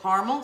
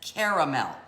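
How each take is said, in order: First: The word is said with two syllables. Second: The word is said with three syllables. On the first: "C A R M" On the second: "C A R A"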